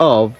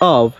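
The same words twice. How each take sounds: First: The word ends with a v sound. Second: The same.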